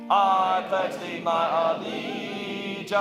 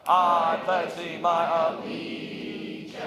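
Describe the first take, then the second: The two takes are said the same way.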